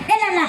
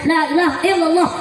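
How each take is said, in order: First: The phrase is slurred into a few syllables. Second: Every syllable of the phrase is pronounced clearly. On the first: The speaker calls it wrong. "Bapak-bapak yang di belakang beda" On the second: The speaker calls it right. "Ustaznya mah fasih bacanya"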